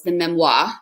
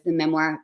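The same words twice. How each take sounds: First: "memoir" said as "mem-WAH"; affected French "memoir", ending in "-mwah"; mock-French memoir. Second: Said in the usual way. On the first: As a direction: end "memoir" on an open French "wah", dropping the final r. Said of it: "which she calls the memoir, because that's how you should always say it".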